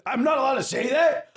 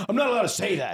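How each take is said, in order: First: High loud protest; indignant shout. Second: Said in the usual way. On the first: Real, not acted. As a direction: shout it in outrage.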